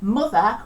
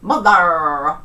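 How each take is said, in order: First: The final R sound is silent. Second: The final R sound is clearly pronounced.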